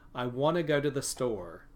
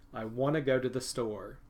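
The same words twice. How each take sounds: First: Want to and go to are reduced. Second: The same.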